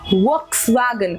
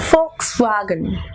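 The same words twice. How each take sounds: First: The word begins with a V sound. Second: The word begins with an F sound. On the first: The speaker calls it wrong. "It is not Volkswagen. If you say Volkswagen, the W sound is here" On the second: The speaker calls it right. "It is actually Volkswagen. W sound is moving to F sound"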